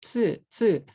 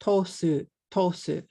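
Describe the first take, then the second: First: "Tsu" as one clean syllable, ts and u together; "Tsu" in one beat, no extra vowel; correct tsu. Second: "Tosu" split into two syllables, to then su; "Tosu" in two beats, an o pushed in after the t; wrong tosu. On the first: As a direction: say "Tsu" the right way, a single beat. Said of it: "Tsu is one syllable". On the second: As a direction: break "tsu" apart with an extra vowel, "Tosu". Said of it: "But I made it two syllables". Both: Shown as a demonstration.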